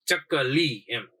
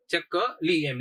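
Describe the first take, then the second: First: ચકલી said very slowly, with the લી drawn out long; lengthened vowel. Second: Said in the usual way. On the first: Shown as a demonstration. Teacher showing students a long vowel in ચકલી, with the લી drawn out slowly. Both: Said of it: "લી ઉપર થોડું વધારે લાંબુ ઉચ્ચારણ થાય છે".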